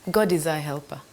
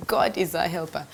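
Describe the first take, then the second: No difference in how they are said.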